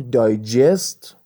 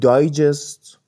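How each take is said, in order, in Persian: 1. تکیه روی هجای دوم است. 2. تکیه روی هجای اول است. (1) "اگه استرس رو بخش دومش باشه" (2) "اگه استرس رو بخش اول کلمه باشه"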